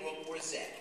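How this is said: The last letter is said the Canadian way, 'zed'.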